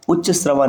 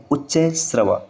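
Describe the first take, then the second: First: उच्च श्रवा as "uchcha-shravaa"; wrong form. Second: उच्च श्रवा as "uchchai-shravaa"; correct form. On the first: Teacher citing the rejected form, "cha" in उच्च श्रवा. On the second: Teacher giving the correct form, "chai" in उच्च श्रवा. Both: Shown as a demonstration. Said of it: "नहीं".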